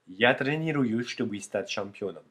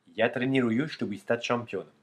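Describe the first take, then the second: Both takes have the same delivery.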